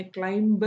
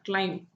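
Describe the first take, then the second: First: "ക്ലൈംബ്" with an audible b after the m; sounded B. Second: "ക്ലൈം" ending on the m, no b; silent B. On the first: Teacher showing what we don't say, B sounded in "ക്ലൈംബ്". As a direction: wrongly voice the final b in "ക്ലൈംബ്". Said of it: "എന്ന് നമ്മൾ പറയില്ല". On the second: Teacher showing students the right word, silent B in "ക്ലൈം". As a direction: say "ക്ലൈം" with the final b left silent. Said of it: "ക്ലൈംബ് എന്ന് നമ്മൾ പറയില്ല". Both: Shown as a demonstration.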